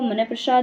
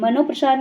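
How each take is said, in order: First: The first part ends in an ah sound. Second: The first part ends in an o sound. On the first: The speaker calls it right. "वो मनःप्रसाद होता है" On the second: The speaker calls it wrong. "नहीं होता"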